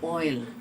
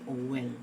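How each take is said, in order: First: It is said as one syllable. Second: It is said as two syllables with a W. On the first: The speaker calls it right. "supposedly with only a single syllable" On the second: The speaker calls it wrong. "now becomes two syllables"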